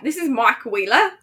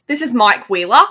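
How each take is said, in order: First: Hesitant attempt at an Australian accent; failed Australian accent. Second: Demonstrated Australian accent. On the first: Co-host trying after being told to try, bad Australian accent. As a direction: badly attempt Aussie, slipping toward British. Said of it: "I can't do any of that". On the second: Podcaster showing co-host how to do it, Australian accent. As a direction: show how the Aussie line goes. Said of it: "you have a good Australian accent". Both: Shown as a demonstration.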